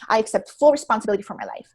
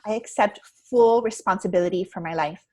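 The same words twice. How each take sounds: First: The voice sounds tense and stressed. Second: The voice sounds relaxed and calm. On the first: The words are said while under stress. The speaker calls it wrong. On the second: The words are said after taking a breath. The speaker calls it right.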